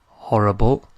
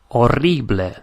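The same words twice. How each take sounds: First: The h sound at the start is pronounced. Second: The h sound at the start is silent. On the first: This is the English word. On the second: This is the Spanish word.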